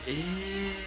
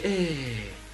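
First: The pitch rises on the word. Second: The pitch falls on the word. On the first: The speaker calls it right. "put that intonation, like, eh, going up" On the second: The speaker calls it wrong. "You can't say, eh. It never works that way"

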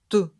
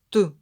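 The two takes are said the same way.

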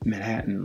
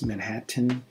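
First: The second 't' is swallowed before a nasal 'n'. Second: The second 't' is clearly pronounced. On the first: The speaker calls it right. "natives pronounce it Manhattan, like spitting image" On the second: The speaker calls it wrong. "most ESL speakers will pronounce it exactly the way it looks"

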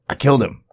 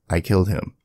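First: It is said with a put-on accent. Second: It is said in a plain, unaccented voice.

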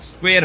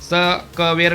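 First: The opening consonants are joined in one cluster. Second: The opening consonants are split by vowels. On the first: The speaker calls it right. "स्क्वेअर म्हणायचं" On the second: The speaker calls it wrong. "स क वेर नाही म्हणायचं"

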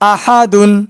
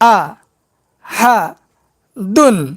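First: The syllables are said joined without pauses. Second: The syllables are said separately with pauses. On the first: "এবার একসঙ্গে উচ্চারণ করব।" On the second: "এবার ভাঙ্গা ভাঙ্গা উচ্চারণ করব।"

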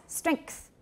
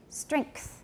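Both takes have the same delivery.

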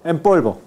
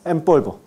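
First: The words run together; the nasal sounds like m. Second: The words run together; the nasal sounds like m.

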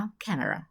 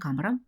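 First: It is said with an English pronunciation. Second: It is said with a Ukrainian pronunciation. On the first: The speaker calls it right. "а camera" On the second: The speaker calls it wrong. "не самара і не камера"

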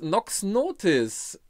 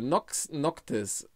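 First: The second word has no k sound before t. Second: The second word has a k sound before t. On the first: The speaker calls it wrong. "nicht Notis, sorry" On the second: The speaker calls it right. "Nox Noctis, um Gottes Willen, nicht Notis"

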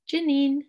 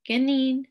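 First: The word starts with a J sound. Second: The word starts with a G sound. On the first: The speaker calls it wrong. "I said that wrong actually" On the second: The speaker calls it right. "So it's a G, not a J sound"

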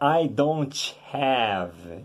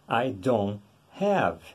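First: The T in don't is pronounced. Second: The T in don't is silent. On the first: The speaker calls it wrong. "fala tudo errado. Fala I don't have" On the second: The speaker calls it right. "se é I don't know, a mesma coisa, I don't have"

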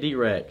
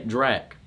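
First: The letter D is said, then 'rack'. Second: It is one syllable, like the start of Dracula. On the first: It sounds like a name about guns or money. The speaker calls it wrong. "don't say D-Rack" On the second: It is short for Dracula, a night creature. The speaker calls it right. "say Drac, okay? Drac is short for Dracula"

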